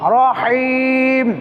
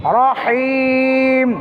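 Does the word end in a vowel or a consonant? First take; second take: consonant; consonant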